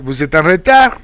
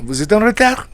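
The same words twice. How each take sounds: First: The pitch rises at the end. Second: The pitch rises at the end.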